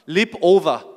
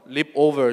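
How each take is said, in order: First: It is said in a plain Australian accent. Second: It is said in a rich American accent. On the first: The speaker calls it right. "호주는 담백하게 얘기를 하죠" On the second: The speaker calls it wrong. "미국에서는 over 하거든요. leap over 좀 느끼하게 발음을 해요"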